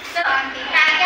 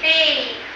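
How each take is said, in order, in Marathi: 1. दोन अक्षरी म्हणतात, taa-keh. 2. एक अक्षरी म्हणतात, tayk. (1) "पण हे चुकीचं आहे" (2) "आपल्याला ह्याला काय वाचायचं आहे?"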